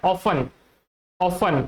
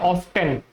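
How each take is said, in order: First: "often" as OFF-un, T dropped; silent T. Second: "often" as OFF-ten, T pronounced; sounded T. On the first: Teacher gives first possible pronunciation, T silent. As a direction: say "often" without any T sound. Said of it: "दो possible pronunciation होते हैं". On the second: Teacher gives second possible pronunciation, T sounded. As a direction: say "often" with a clear T before -en. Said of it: "और एक होता है". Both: Shown as a demonstration.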